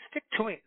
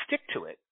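First: Said in the usual way. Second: Breathy, whispered echo of stick; whispered repeat. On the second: Real, not acted. To listeners urging persistence, whispered under the breath. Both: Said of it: "repeats advice for emphasis".

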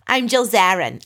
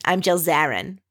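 First: Mock Long Island brag, falling at the end; Long Island accent with a falling finish. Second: Lighter Long Island mimic ending on a rise; Long Island accent, tossed off with a rise. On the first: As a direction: strut it out like a Long Island socialite. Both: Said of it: "she's speaking in the Long Island accent".

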